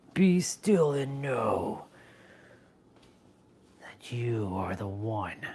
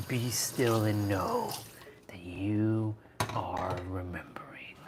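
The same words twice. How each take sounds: First: Starts slow and level, drops to a whisper; slow guru phrase fading to whisper. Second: Slow, whispered spiritual line; mock guru whisper. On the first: Pretend. Streamer intoning mock wisdom, ending in a whisper. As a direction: intone then breathe the rest. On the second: Streamer whispering mock wisdom to the chat. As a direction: breathe it out like a sage. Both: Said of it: "I talk like that a lot".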